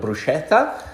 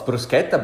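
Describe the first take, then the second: First: The ch is not said as a k sound. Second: The ch is said as a k sound. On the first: The speaker calls it wrong. "I've heard many times called a bruschetta" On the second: The speaker calls it right. "the C H sounds like a K"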